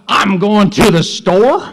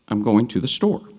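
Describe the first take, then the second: First: It is said with an angry, annoyed tone. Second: It is said as a plain, neutral statement.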